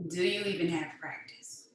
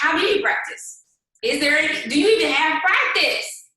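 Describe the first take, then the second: First: Softer, slow repeat of the question; subdued repeat, almost to herself; quiet repeat. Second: Emphatic rising challenge; loud challenge. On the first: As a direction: let it drop quietly. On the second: Rhetorical challenge to team. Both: Acted.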